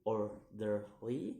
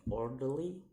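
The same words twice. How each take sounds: First: "orderly" slowly in three beats, rising at the end; syllable by syllable. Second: Said in the usual way. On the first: Shown as a demonstration. Teacher demonstrating syllables, "orderly" slow and split. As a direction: break "orderly" apart and lift the last. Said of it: "three syllables to say". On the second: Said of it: "in ly".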